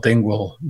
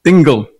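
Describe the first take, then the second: First: "Dingwall", second syllable sounded like wall; Dingwall slip. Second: "Dingle" with a short -gle ending, no w; corrected Dingle. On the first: Real, not acted. Preacher misnaming an Irish town, "Dingwall" ending in wall. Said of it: "Dingle, sorry, not Dingwall". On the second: Shown as a demonstration. Preacher correcting the town's name, firm "Dingle" without the w. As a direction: say "Dingle" firmly, ending in -gul. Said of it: "sorry, not Dingwall".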